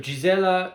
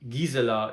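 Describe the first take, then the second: First: The name is pronounced the English way. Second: The name is pronounced the German way. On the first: "the English pronunciation" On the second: "the German pronunciation of her name"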